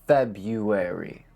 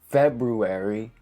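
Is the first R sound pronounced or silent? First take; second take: silent; pronounced. First: The first R sound is left out. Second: The first R sound is pronounced. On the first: The speaker calls it right. "say February" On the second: The speaker calls it wrong. "don't say February"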